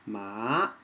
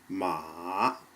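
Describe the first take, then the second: First: The pitch rises steadily from middle to high. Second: The pitch dips low and then rises again. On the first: "as in the second tone" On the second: "which is third tone"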